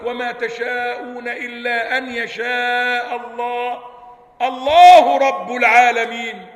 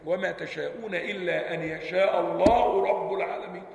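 First: It pauses after Allah, then restarts with Allah. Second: It runs on without a pause after Allah. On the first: Allah Lord of the worlds becomes a separate sentence. The speaker calls it wrong. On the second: Lord of the worlds describes the name of God. The speaker calls it right.

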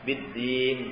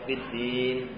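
First: The long vowel is held for two beats. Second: The long vowel is held for four beats. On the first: "2 harakat juga boleh" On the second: "4 harakat juga boleh"

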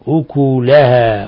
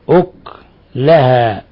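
First: The k sound is followed by a u vowel. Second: The k sound has no vowel after it. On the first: This is the standard reading. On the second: This is an alternative reading tradition.

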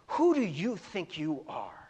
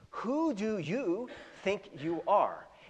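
First: It is said in a sneering, insulting way. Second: It is said as a sincere, genuine question.

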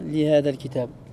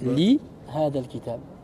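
First: The lam runs into the next word. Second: The lam is kept apart from the next word. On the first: The speaker calls it wrong. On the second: The speaker calls it right.

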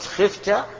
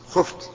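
First: The first vowel is i. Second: The first vowel is u. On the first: The person addressed is the one who fears. The speaker calls it wrong. "لانك لو قلت خفت جعلته هو الخائف" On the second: The person addressed is the one who is feared. The speaker calls it right. "فاذا كنت تريد المخوف منه فقل خفت"

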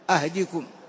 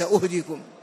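First: The first vowel is a, as in ahdikum. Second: The first vowel is u, as in uhdikum. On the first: It means I will guide you. The speaker calls it right. "بفتح الهمزة" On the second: It means I will give you gifts. The speaker calls it wrong. "وليس أهديكم"

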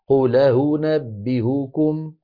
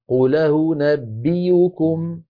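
First: The last hamza is softened, not fully stopped. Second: The last hamza is replaced by a y sound. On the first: "الثانية والثالثة مسهلتين" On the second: "فيكون النطق بياء مضمومة"

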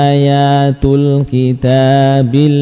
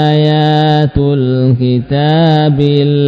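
No difference in how they are said.

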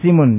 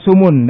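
First: The vowel after the s is i. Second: The vowel after the s is u. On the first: "dan kasrah" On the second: "dengan dhammah sin"

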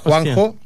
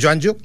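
First: The name begins with a Spanish 'hwan' sound. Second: The name begins with a Catalan 'zho-an' sound. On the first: The speaker calls it wrong. "pero no digas Juanjo" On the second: The speaker calls it right. "que es Joanjo"

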